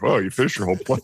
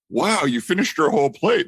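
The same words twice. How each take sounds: First: It sounds teasing and judgmental. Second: It sounds warm and genuinely impressed. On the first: Eating everything is seen as greedy. "to like" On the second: Eating everything is praised as good behavior. "the tone of like the same sentence switched from like"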